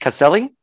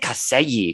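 First: The double L sounds like a plain L. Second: The double L sounds like a Y. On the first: The speaker calls it right. "but it's Caselli" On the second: The speaker calls it wrong. "I say Caselli because I'm Cuban and I think double L's"

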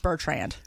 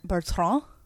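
First: The name is pronounced in an American English way. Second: The name is pronounced in a European, French-like way. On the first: "I live in the United States, so it's Bertrand" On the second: "In Europe, it's supposed to be pronounced Bertrand"

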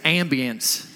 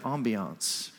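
First: It is said with an Oklahoma pronunciation. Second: It is said in a fancy, French-like way.

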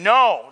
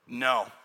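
First: It is said forcefully, like a scream. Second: It is said plainly and calmly.

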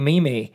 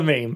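First: The word is said with two syllables. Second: The word is said with one syllable. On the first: The speaker calls it wrong. "This is not how you say it" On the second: The speaker calls it right. "It's a meme"

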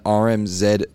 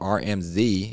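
First: The letter Z is said the non-American way. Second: The letter Z is said the American way.

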